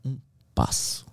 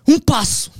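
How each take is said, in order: First: Slow whispered "Um passo"; soft echo. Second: "Um passo" shouted high and loud; shouted step. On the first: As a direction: breathe "Um passo" quietly, slowly. ("Um passo" sussurrado e lento) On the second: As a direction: yell "Um passo" in triumph. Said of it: "as palavras que eu dizia". ("Um passo" gritado alto) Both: Retold or imitated.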